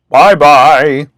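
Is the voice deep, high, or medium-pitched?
deep. It is said in a deep, gruff voice.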